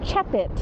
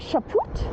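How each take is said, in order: First: The last syllable sounds like 'pit'. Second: The last syllable sounds like 'poot'. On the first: The speaker calls it right. "it's a chapit" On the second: The speaker calls it wrong. "I want to say Chaput, and then he goes, no, it's not a poot"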